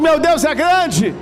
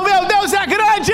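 First: It is said louder. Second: It is shouted very loudly.

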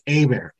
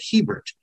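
First: The name is pronounced in a French way. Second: The name is pronounced in a non-French way. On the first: This is how a French-settled community says it. "it was mostly French, so up here it's Hebert" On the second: This is how a German-settled community says it. "settled by mostly Germans originally, so down there they pronounce it Hebert"

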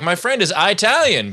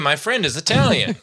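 First: Italian is said with a changed first vowel. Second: Italian is said with the usual first vowel. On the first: The mention sounds prejudiced. The speaker calls it wrong. "pronouncing the vowel wrong makes it more racist" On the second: A neutral mention of the friend's background. The speaker calls it right. "if you just say"

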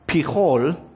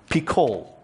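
First: The middle consonant is a breathy fricative. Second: The middle consonant is a hard stop. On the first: This is the original pronunciation. The speaker calls it right. "In the Hebrew, it's pronounced Pichol" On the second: This is an anglicized pronunciation. The speaker calls it wrong. "go with the hard velar stop. I'm going to go with Picol. That is a mispronunciation on purpose"

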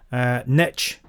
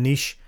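First: The word has an American pronunciation. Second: The word has a non-American pronunciation. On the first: "as it's pronounced in America" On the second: "rather than"

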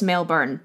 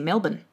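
First: It is said with a non-Australian pronunciation. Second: It is said with an Australian pronunciation. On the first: "I know it's Melbourne" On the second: "Australian people have a funny accent and they say Melbourne"

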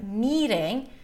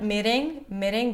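First: The first vowel is a long, high E. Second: The first vowel is short. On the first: The speaker calls it right. "High E, ... but meeting. ... make this syllable a little longer" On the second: The speaker calls it wrong. "not meeting"

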